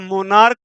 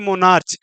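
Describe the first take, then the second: First: The word ends with a k sound. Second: The word ends with a ch sound. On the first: The speaker calls it right. "मोनार्क पढ़ा जाएगा" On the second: The speaker calls it wrong. "ना कि मोनार्च"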